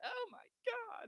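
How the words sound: It is a whiny, crying Luigi impression.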